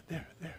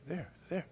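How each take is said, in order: Both takes have the same delivery.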